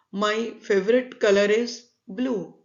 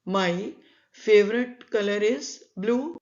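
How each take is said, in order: Both takes have the same delivery.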